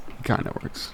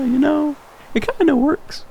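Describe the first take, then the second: First: Said in the usual way. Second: Squeaky, very high-pitched aside; comic high voice. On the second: Pretend. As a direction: jump way up high for a jokey, hedging claim. Jokingly defends his shaky accent.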